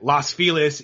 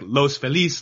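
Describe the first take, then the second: First: The name is pronounced the anglicized English way. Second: The name is pronounced the Spanish way. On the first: This is how locals say the name. "All the neighborhoods out here, like Los Feliz" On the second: This is how the spelling suggests saying it. "even though it looks like Los Feliz"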